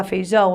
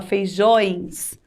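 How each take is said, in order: First: Said in the usual way. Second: "feijões" ending in nasal õe plus s; plural ending. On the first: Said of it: "eu vou falar feijões". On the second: Shown as a demonstration. Teacher showing pupils the plural, nasal ões. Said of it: "É no plural".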